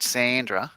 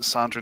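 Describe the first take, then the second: First: Sandra with a flat "a" as in sand; "Sandra", first vowel as in cat; short-vowel pronunciation. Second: Sandra with a long "ah" in the first syllable; "Sandra", first vowel open as in father; broad-vowel pronunciation. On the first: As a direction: say Sandra as SAN-dra. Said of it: "I guess it's Sandra". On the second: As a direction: say Sandra as SAHN-dra. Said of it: "not Sandra". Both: Shown as a demonstration.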